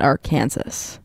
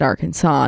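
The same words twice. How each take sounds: First: The word ends like 'Kansas', with a z sound. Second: The word ends in an open 'saw' sound. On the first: "not Arkansas? ... It's just Kansas with an AR in front of it" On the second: "So why is it Arkansas"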